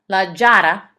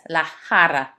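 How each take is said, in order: First: The word begins with an English j sound. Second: The word begins with a raspy throat sound. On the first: The speaker calls it wrong. "It's not la jara" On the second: The speaker calls it right. "it's la jara"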